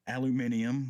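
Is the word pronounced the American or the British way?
British. It has five syllables, the British way. The speaker calls it wrong. "like some weird British"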